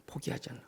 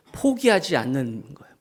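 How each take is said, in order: First: 포기하지 않는 unvoiced, breathed softly; whisper. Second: Said in the usual way. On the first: Shown as a demonstration. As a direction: repeat it as a hushed whisper. (속삭이듯 포기하지 않는) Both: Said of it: "한번 따라합시다".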